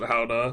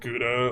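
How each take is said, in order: First: It begins with a breathy h-like sound. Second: It begins with a hard g sound. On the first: It is the speaker's own preferred way when raising it first. "If I bring it up first, I'll probably pronounce it Howda" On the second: It matches how the other person says it. "I probably will just pronounce it Gouda alongside them"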